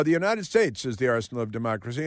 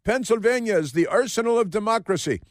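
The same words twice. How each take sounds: First: Said in the usual way. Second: High-pitched mock politician with put-on accent; Josh Shapiro. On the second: Host mocking the governor's speech, put-on orator's accent. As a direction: declaim it as a caricatured speechmaker. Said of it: "Why did he speak with that accent?".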